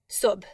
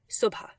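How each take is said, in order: First: The word ends on a consonant sound. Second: The word ends on a vowel sound. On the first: This follows the spelling literally. "based on our letter chart, it should be pronounced sub" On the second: This is the most common everyday pronunciation. "most often, you'll hear it pronounced subha"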